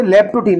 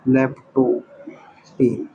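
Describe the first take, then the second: First: Said in the usual way. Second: Low, soft, very slow syllables; slow dictation. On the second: Real, not acted. Teacher rewriting the corrected term, slow dictation. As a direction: sound it out while writing, gaps between parts.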